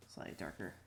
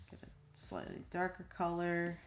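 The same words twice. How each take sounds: First: Much lower, soft mutter; muttered to self. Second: Said in the usual way. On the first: Real, not acted. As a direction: mumble it under your breath.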